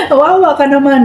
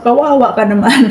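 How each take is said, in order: First: Mock sympathy broken by laughter; laughing mock pity. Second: Said in the usual way. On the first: Laughing at a rival on her live stream, mock pity.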